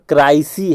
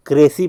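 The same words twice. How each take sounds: First: क्राइसी with "eye" in the first syllable; spelling pronunciation. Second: क्रेसी with a long "ay" in the first syllable; CRAY-see pronunciation. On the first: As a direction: say क्राइसी as "cry-see", as spelt. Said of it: "लेकिन यहाँ पर क्राइसी है". (क्राइसी, "ए" की जगह "आइ") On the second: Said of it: "उसमें क्रेसी पढ़ते हैं". (क्रेसी, पहले हिस्से में "ए" की आवाज़) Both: Shown as a demonstration.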